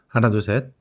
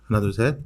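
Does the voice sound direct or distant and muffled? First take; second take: direct; distant, muffled. First: The voice is picked up directly from the front. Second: The voice is picked up from behind, sounding muffled. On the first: "마이크 입과의 거리는 대략 이십 센티미터 정도 떨어진 상태에서 녹음 중입니다" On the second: "지금은 마이크 뒷부분에서 녹음 중입니다"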